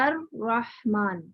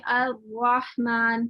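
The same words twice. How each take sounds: First: The r is a clear tongue-tap r. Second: The r sounds like a w. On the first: The speaker calls it right. "ज़बान का हिस्सा लगाकर" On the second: The speaker calls it wrong. "वाव-वाव सुनाई दे रहा है"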